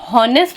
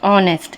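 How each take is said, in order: First: An h sound is heard at the start. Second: No h sound is heard at the start. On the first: The speaker calls it wrong. "हम कभी भी हॉनेस्ट नहीं पढ़ते" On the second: The speaker calls it right. "हमेशा ऑन sorry ऑनेस्ट पढ़ते हैं"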